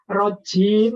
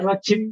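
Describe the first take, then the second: First: The vowel is held long. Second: The vowel is kept short. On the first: The speaker calls it right. "rojim harus panjang" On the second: The speaker calls it wrong. "kalau dibaca rojim saja berbeda"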